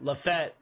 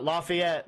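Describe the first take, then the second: First: The name is said with two syllables. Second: The name is said with three syllables. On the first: The speaker calls it right. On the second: The speaker calls it wrong. "not Lafayette"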